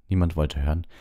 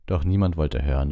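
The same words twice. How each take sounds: First: „Niemand wollte hören“ repeated in a whisper; whispered echo. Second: Said in the usual way. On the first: A narrator's reading. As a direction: breathe „Niemand“ again, unvoiced and hushed.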